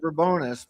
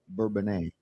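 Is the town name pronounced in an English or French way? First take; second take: English; French. First: The name is said with an English-style pronunciation. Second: The name is said with a French-style pronunciation. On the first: This is the older local way of saying it. "It was Bourbonnais for many years, like when I grew up" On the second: This is the newer official way of saying it. "they changed it to the French pronunciation"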